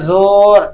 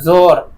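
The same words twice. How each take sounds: First: The vowel is drawn out long. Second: The vowel is said short, not drawn out. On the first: The speaker calls it wrong. "नहीं बोलते हैं ज़ोर" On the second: The speaker calls it right. "बोलते हैं ज़ोर"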